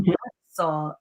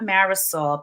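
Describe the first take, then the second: First: The name is said with a Spanish pronunciation. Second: The name is said with an English pronunciation. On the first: The speaker calls it right. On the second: The speaker calls it wrong. "It's not Marisol. Please do not say that"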